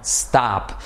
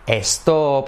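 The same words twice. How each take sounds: First: The word starts directly with the s sound. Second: An extra e vowel is added before the s. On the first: The speaker calls it right. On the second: The speaker calls it wrong. "En español tendemos a decir"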